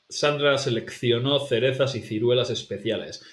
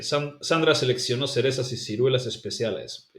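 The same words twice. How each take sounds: First: Sandra seleccionó with th on each C and kth in seleccionó; Castilian th. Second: Sandra seleccionó with every C as S; Latin American S. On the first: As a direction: lisp the C's, Spain style. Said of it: "This is also a difficult one". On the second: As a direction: hiss each C like a Latin American. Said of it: "it's all basically all S's". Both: Shown as a demonstration.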